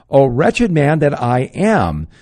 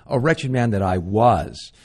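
First: "O wretched man that I am" slow and loud, leaning on "wretched"; anguished lament. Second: Said in the usual way. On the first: Acted. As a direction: cry out "wretched" slowly, loud and heavy. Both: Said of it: "Notice it doesn't say".

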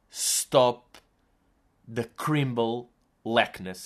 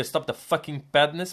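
First: Slow, mangled English, words falling apart; garbled English. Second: Said in the usual way. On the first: Retold or imitated. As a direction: stammer out "Stop the crimble lackness" in slurred broken English. (inglês atabalhoado e lento, a tentar dizer "Stop the fucking badness") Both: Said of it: "eu deixei de conseguir dizer".

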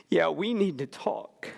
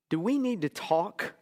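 First: "need" lifted, then falling away on "talk"; answering in agreement. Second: Gently questioning, voice lifting on "need to talk". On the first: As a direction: confirm it, stressing "need" and closing on a fall. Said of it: "I turned around and I said". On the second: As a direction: ask "do we need to talk?" with a rise at the end. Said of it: "and the voice said". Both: Retold or imitated.

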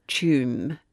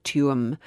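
First: "Tuam" as one syllable, like "choom"; Irish pronunciation. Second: "Tuam" in two syllables, "TOO-um"; American pronunciation. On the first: Explaining a place name to co-host, "Tuam" in one syllable, "choom". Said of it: "the Irish pronounce it". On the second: Quoting American speakers to co-host, "Tuam" in two syllables, "TOO-um". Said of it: "American people pronounce it". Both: Shown as a demonstration.

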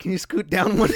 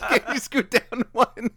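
First: Put-on girl's voice. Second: Put-on high, slow girly voice through laughter; mock her while cracking up; laughing girl voice. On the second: Repeated laughing.

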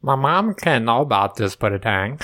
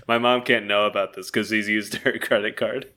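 First: Low, drawn mumbling impression; botched character voice, words sliding together; Pootie Tang. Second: Said in the usual way. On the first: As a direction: put on a low, slurry character voice. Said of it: "That's not what he sounds like". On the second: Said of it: "I'm not, I'm not doing it".

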